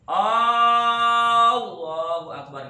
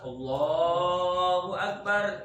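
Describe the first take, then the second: First: The first vowel of Allah is drawn out long. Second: The first vowel of Allah is kept short. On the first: It becomes a question asking whether God is great. The speaker calls it wrong. "nggak boleh" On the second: It is a statement that God is great. The speaker calls it right. "harus Allahu Akbar"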